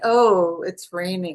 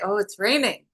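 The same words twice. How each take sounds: First: It sounds upset and disappointed. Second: It sounds excited and happy.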